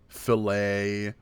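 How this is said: It is said with an American pronunciation. The speaker calls it right. "in America, we say"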